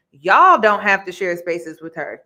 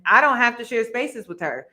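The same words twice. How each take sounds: First: "Y'all" punched out much louder; stress on Y'all. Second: Said in the usual way. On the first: Real, not acted. Host calling out the cast, heavy stress on "Y'all". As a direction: hit "Y'all" hard, then ease off.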